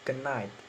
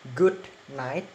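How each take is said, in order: First: The d sound blends into the following n. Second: The d sound is fully pronounced. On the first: "in assimilation, it's become" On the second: "In normal pronunciation"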